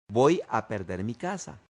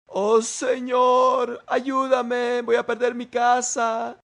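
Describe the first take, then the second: First: Said in the usual way. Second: High, loud, drawn-out mock wail; worried prayer. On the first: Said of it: "¿Oíste lo que dijiste?". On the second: Worried believer prays over losing the house, wailing in mock anguish. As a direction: imitate a panicked plea to God. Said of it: "Nos ponemos preocupados en la oración y oramos diciendo".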